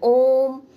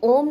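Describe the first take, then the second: First: The vowel is stretched out for a long time. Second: The vowel is said at normal short length. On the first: "ये जो स्वर है वो हम थोड़ा खींचकर बोल रहे हैं" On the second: "खाली ओम नहीं बोल रहे हैं"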